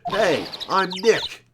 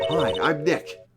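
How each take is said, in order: First: It is said at a loud volume. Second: It is said at a quiet volume.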